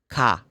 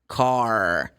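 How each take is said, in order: First: The r at the end is silent. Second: The r at the end is clearly pronounced. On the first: This is how British people say it. "for British people, this R sound is not sounded like American way" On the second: This is how it is said in the States. "people are going to pronounce the R like R"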